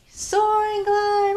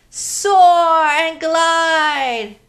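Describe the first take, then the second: First: High airy glide voice; high floaty echo. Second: Very slow, higher and louder; long swooping sing-song; slow gliding cue. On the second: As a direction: draw each word out like soaring. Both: Shown as a demonstration. Leading kids' movement game.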